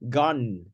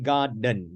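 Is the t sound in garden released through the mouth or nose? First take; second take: nose; mouth. First: The t sound is released through the nose. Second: The t sound is released through the mouth. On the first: The speaker calls it right. "They say guard mm, mm, to the nose" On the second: The speaker calls it wrong. "normally they don't say garden"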